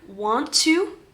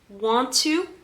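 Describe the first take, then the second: First: It is said as two full separate words. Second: The same.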